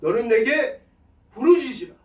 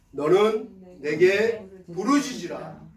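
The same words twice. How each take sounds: First: Loud, high, forceful cry of scripture. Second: Slow, phrase-by-phrase scripture recitation; measured recitation. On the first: Pastor shows crying out to God in prayer, loud fervent cry. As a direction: call it out as a fervent plea. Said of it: "부르짖어 기도하는 거예요". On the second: Pastor leads congregation in the verse, slow recitation. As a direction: recite it slowly so others can join. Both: Shown as a demonstration.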